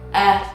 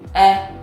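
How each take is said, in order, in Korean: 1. 이 모음 소리는 편안하고 가슴에서 울립니다. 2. 이 모음 소리는 편안하고 가슴에서 울립니다.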